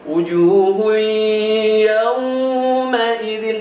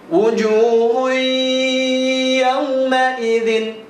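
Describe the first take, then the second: First: The first vowel of yauma is drawn out long. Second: The first vowel of yauma is kept short. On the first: The speaker calls it wrong. "nggak boleh dibaca panjang ... tidak boleh" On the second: The speaker calls it right. "bacanya harus pendek"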